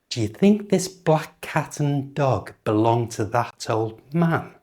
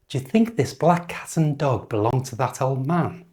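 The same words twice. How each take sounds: First: The sentence is spoken slowly and carefully. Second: The sentence is spoken at normal speed.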